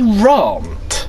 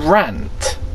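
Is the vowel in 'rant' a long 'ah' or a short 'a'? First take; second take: long 'ah'; short 'a'. First: The vowel is a long broad 'ah' sound. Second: The vowel is a short flat 'a' sound. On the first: The speaker calls it wrong. "Why do you say rant" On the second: The speaker calls it right. "rather than rant"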